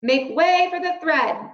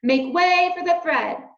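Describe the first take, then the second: First: Loud, higher announcing call; crying out. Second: Louder, even higher call; crying out. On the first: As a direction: clear the crowd with a call. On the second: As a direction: call out again, pushing through. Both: A narrator's reading. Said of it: "cried a mouse".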